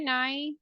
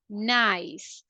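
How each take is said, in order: First: The final s sound is weak or dropped. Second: The final s sound is clear and exaggerated. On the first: The speaker calls it wrong. "Sometimes I listen to some people saying" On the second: The speaker calls it right. "exaggerate the ending sounds"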